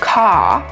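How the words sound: The final R sound is dropped. "which is more British"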